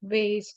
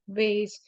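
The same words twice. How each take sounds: First: It is said with an American pronunciation. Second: It is said with an American pronunciation.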